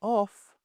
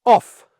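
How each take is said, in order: First: Soft, limp 'off'; quiet, unconvincing order; weak command. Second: Loud, higher, sharp 'off'; short, forceful corrective command; assertive correction. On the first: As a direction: say it half-heartedly, with no force. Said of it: "don't say". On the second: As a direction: order the dog off firmly. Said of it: "in an assertive, corrective way". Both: Shown as a demonstration.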